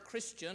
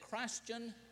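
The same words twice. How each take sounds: First: The first part is said the usual short way. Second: The first part sounds like the word Christ. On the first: "he didn't say it like that"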